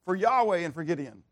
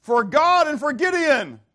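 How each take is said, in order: First: Said in the usual way. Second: High, loud rallying shout; battle cry. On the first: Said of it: "notice in the first time he says it". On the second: Acted. Preacher voicing the soldiers' battle cry, loud shout. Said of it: "we're gonna yell out".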